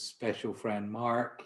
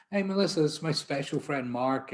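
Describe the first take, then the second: First: Said in the usual way. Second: Imitating a loud, much higher hearty greeting; mock cheerful introduction. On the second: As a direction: boom it out like a buddy showing off his special friend. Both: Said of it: "introduces me to everyone as his".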